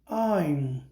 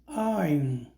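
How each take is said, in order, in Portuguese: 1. As duas palavras são unidas em uma única sílaba. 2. As duas palavras são unidas em uma única sílaba.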